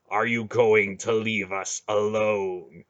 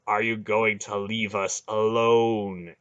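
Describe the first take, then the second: First: Slow, heavy threat; slow menacing demand. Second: Slow, heavy repeated demand; slow menacing demand. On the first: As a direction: grind out each word. Garion squeezing the heart. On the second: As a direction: insist coldly. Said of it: "Garion demanded again". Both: Acted.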